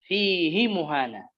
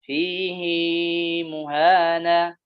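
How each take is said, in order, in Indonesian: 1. Vokal setelah h dibaca pendek. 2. Vokal setelah h dibaca panjang. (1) "فقرأ بدون مد" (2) "حفص يقرأ مثل ابن كثير"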